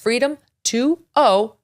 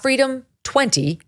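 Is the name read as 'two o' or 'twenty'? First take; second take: two o; twenty. First: The name ends with 'two' then the letter O. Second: The name ends with the number 'twenty'. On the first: The speaker calls it right. "That's Freedom two o" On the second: The speaker calls it wrong. "not Freedom twenty"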